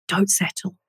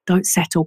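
First: Soft inner voice. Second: Said in the usual way. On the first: Retold or imitated. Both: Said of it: "And it was just like".

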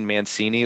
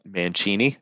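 First: Said in the usual way. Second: "Mancini" said the Italian way, with a ch sound; Italian pronunciation. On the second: Shown as a demonstration. Host offering the guest's name as said in Italy, Italian pronunciation of "Mancini". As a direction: say "Mancini" slowly as man-CHEE-nee. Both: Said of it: "if you're in Italy".

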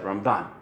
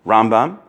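First: Ramban with the last syllable BAN stressed, the ram light. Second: Rambam with the first syllable RAM stressed, the bam light. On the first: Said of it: "the emphasis is on the left side". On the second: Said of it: "the emphasis is on the right side of the word". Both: Shown as a demonstration.

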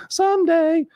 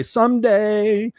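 First: Mock wishful sigh. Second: Dreamy someday. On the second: Retold or imitated. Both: Mocking wishful thinking.

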